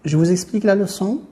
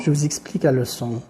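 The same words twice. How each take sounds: First: "Je vous explique la leçon" as a question, higher and rising on "leçon"; question intonation. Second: Said in the usual way. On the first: Shown as a demonstration. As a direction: lift the voice through to "leçon" to turn the statement into a question. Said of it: "et pour la seconde, c'est une interrogation". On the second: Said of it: "le changement de la voix".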